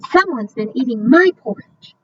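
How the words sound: It is said in a medium-sized voice.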